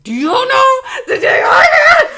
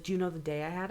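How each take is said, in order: First: Very high, loud shouted comeback; indignant shriek. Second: Hushed, downbeat imitation; subdued complaint. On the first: Retold or imitated. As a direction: scream it back, incredulous, near laughter. Shouted retort to same question. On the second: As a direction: quote the caller quietly, underplayed. Caller's line before shouted retort.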